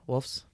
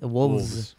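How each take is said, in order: First: The plural ends with an f sound. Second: The plural ends with a v sound. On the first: The speaker calls it wrong. "I say it with the F" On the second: The speaker calls it right. "There's no F in there when it's plural"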